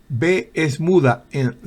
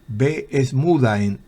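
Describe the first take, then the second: Both takes have the same delivery.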